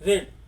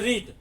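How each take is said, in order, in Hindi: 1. स्वर छोटा है, जैसे 'red' में। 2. स्वर लंबा है, जैसे 'reed' में। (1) "पास्ट टेंस में जब आएगा रीड तो उसको पढ़ेंगे रेड" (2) "इसको पढ़ते हैं रीड"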